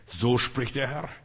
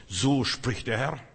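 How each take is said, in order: Both takes have the same delivery.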